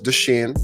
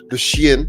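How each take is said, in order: First: The name is said in a plain accent. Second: The name is said in a Jamaican accent.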